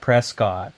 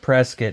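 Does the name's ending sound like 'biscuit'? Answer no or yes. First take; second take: no; yes. First: The name does not end like biscuit. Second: The name ends like the word biscuit. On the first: This is how outsiders say the name. The speaker calls it wrong. "not Prescott" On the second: This is how local people say the name. The speaker calls it right. "you're supposed to pronounce it Prescott"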